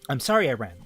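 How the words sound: It is read in a put-on Ada voice.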